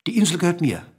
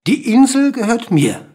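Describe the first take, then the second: First: Said in the usual way. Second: "Die Insel gehört mir" pitched high and louder; insistent claim. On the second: A narrator's reading. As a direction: drive home "Die Insel gehört mir" in a raised, emphatic voice. Bird insists, repeating its claim. ("Die Insel gehört mir" hoch und nachdrücklich betont)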